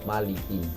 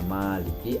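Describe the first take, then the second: First: The first vowel is kept short. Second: The first vowel is drawn out long. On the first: It means king. "atau Malik yang artinya raja" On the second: It means owner. "ma-nya itu dibaca panjang, yang berarti pemilik"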